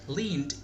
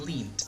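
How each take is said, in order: First: The word ends in a d sound. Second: The word ends in a t sound.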